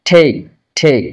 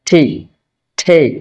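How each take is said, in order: Both takes have the same delivery.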